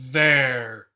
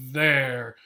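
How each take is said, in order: No difference in how they are said.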